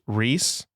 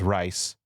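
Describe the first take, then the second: First: The vowel sounds like 'ee' in 'see'. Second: The vowel sounds like 'i' in 'ice'. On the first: This is how it is said in German-speaking places. "in Germanic countries, it's pronounced Reese" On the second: This is how it is said in English-speaking places. "In England, America, and English speaking, we use rice"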